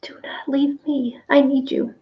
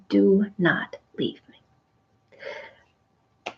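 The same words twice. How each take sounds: First: High whispered begging; desperate plea. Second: Slow, hushed plea; Mary at the risen Jesus' feet, a slow hushed plea; pleading. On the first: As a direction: whisper it, clinging on for dear life. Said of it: "Or do we say". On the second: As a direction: beg slowly and softly, clinging to his feet. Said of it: "Is that the way we worship God?". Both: Retold or imitated.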